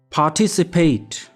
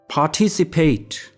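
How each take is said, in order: First: It is said with a British accent. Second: It is said with a British accent.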